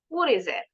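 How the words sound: The T between vowels is a quick D-like flap. "In American English"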